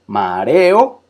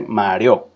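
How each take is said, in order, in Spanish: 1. Las vocales finales están en sílabas separadas. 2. Las vocales finales se unen en una sílaba. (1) "son tres sílabas" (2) "que uno no dice mareo. Mareo es otra palabra"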